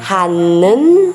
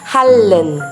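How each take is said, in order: First: The middle consonant is a nasal N sound. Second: The middle consonant is a liquid L sound. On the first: The speaker calls it wrong. "Vamos dizer hanan ou hallan" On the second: The speaker calls it right. "Isso, hallan"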